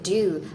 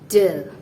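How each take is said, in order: First: The word has a full, long 'oo' vowel. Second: The word has a short, weak 'uh' vowel. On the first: "Native speakers sometimes don't pronounce it do" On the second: "they pronounce it de"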